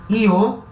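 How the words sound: The word starts with an ee-like sound. This is common in Spain. "Io é mais comum na Espanha"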